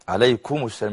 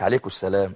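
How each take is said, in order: First: The m sound is pronounced clearly and distinctly. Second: The m sound is weakened and not clearly pronounced. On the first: The speaker calls it right. "يظهر الميم لو سمحت" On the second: The speaker calls it wrong. "مش"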